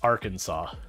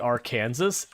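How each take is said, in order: First: It ends like the word saw. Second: It ends like the word Kansas. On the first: The speaker calls it right. "It's Arkansas" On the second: The speaker calls it wrong. "the thing that makes it look like it should be Arkansas. It's not"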